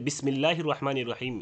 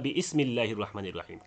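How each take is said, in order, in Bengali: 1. শব্দগুলো হামজা ছাড়া যুক্ত হয়ে পড়া হয়। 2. 'bi' আর 'ismi'-এর মাঝে একটি হামজা আলাদা করে।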